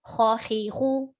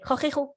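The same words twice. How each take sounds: First: Each vowel gets one short even beat. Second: The syllables are rushed together very quickly. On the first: The speaker calls it right. "one haraka" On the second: The speaker calls it wrong. "That's too fast"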